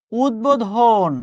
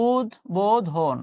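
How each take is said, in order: First: উদ্বোধন read slowly as written, ud-bo-dhon; slow spelling-style উদ্বোধন; careful slow word. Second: উদ্বোধন said slowly with a softened ব, like uddodhon; slow falling demo of উদ্বোধন; slow pronunciation demo. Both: Shown as a demonstration. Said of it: "এই শব্দগুলো আপনি সবসময় এইভাবে উচ্চারণ করেন".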